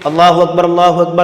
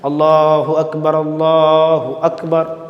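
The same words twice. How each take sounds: First: It is said quickly without pauses. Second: It is said slowly with pauses.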